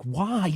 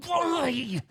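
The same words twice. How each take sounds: First: Higher-pitched, drawn-out "why"; first, more contained cry of disbelief; retold dismay. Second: Very high, stretched-out "why"; anguished wail. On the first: Player pleading after the ball bricks off, retold dismay. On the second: Retold or imitated. Player crying out to the pinball gods, anguished wail. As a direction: wail it in mock agony. Retold plea, escalating repeat.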